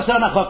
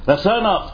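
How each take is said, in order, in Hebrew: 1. המילה מסתיימת ב-kh ואחריה 'a'. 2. המילה מסתיימת בתנועה 'a' לפני kh.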